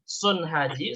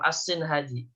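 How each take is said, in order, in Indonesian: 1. Suku kata pertama memiliki vokal u. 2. Suku kata pertama memiliki vokal i. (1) "sudah didomakan" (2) "Bisa dibaca kasroh"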